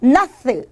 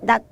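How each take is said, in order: First: The final consonant is released with a vowel. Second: The word ends in a clipped, unreleased consonant. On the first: The speaker calls it wrong. "이렇게 발음하지 않는 거야" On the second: The speaker calls it right. "디귿으로 발음이 되더라"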